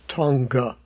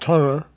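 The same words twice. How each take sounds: First: The ng is followed by a hard g. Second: The ng is soft, with no hard g. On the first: The speaker calls it wrong. "not Tonga" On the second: The speaker calls it right. "I believe it's pronounced Tonga"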